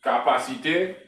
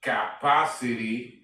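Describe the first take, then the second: First: Capacité said the French way, louder; French word. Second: Capacity said in English, slowly; English word. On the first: Teacher giving the French form first, in French. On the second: Teacher giving the English equivalent, slowly. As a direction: draw out Capacity with English vowels. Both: Shown as a demonstration.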